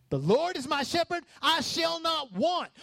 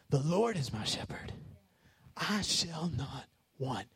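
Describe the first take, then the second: First: Preacher's triumphant shout; shouted proclamation. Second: Quiet, reverent reading of the psalm; soft, slow psalm. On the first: Preacher proclaims psalm at full force. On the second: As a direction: lower and softer, drawn out. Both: Real, not acted.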